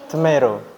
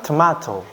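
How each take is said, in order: First: Tomato as "tuh-MAY-ro"; American pronunciation. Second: Tomato as "tuh-MAH-to"; British pronunciation. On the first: Teacher repeating for students, American Tomato "tuh-MAY-ro". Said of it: "Orang Amerika itu ngucapinnya tomato". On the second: Teacher repeating for students, British Tomato "tuh-MAH-to". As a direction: say Tomato with ah and a clear t. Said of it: "orang British ngucapinnya tomato". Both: Shown as a demonstration.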